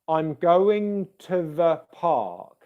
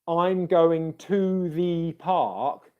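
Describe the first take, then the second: First: The words 'to the' are said weak and reduced. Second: Every word is said fully and stressed. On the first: The speaker calls it right. "you're probably the majority of the time going to want to use the weak form of both words" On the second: The speaker calls it wrong. "which sounds very unnatural because it's all very stressed"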